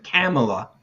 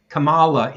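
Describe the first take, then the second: First: Kamala with the first syllable stressed, KAM-uh-la; preferred pronunciation. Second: Kamala with the middle syllable stressed, kuh-MAH-la; mispronounced name. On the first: Host contrasting the approved name, Kamala as KAM-uh-la. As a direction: hit the front of Kamala, KAM-uh-la. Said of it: "instead of Kamala". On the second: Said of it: "If you pronounce it". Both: Shown as a demonstration.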